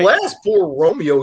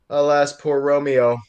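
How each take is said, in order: First: It is said in a goofy cartoon character voice. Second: It is said in the reader's normal voice.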